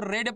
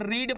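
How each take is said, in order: First: The vowel is a short 'eh' sound. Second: The vowel is a long 'ee' sound. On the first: It is the past or third form. "इसको रेड पढ़ते हैं" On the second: It is the present (first) form. "इसको हम रीड पढ़ते हैं"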